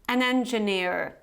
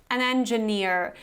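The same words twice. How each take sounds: First: The final r sound is pronounced. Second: The same.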